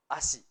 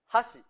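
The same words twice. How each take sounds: First: ASHI starting straight on the vowel a; H left silent. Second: HASHI with a clearly sounded h at the start; H pronounced. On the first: Teacher showing what happens without the h, silent h. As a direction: say ASHI lower, with no h at all. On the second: Teacher giving the word for chopsticks, h pronounced. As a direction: say HASHI higher, opening on an audible h. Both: Shown as a demonstration. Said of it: "Si no pronunciamos la H".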